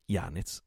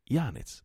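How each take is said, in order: First: Said in the usual way. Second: Higher, falling cry of the name; frightened stammer. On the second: A narrator's reading. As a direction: say YANEZ higher, as a frightened woman. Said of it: "balbettò Marianna pallida come una morta". (balbettio spaventato, appena accennato)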